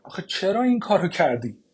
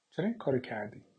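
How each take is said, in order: First: Louder and higher, pressing "این" hard; anguished outcry. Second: Said in the usual way. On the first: Acted. Mother cries out at her daughter for burning the letter. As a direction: burst out with the question she just asked.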